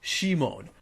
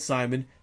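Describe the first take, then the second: First: The name is said with a Japanese pronunciation. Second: The name is said with an English pronunciation. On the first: The speaker calls it wrong. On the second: The speaker calls it right.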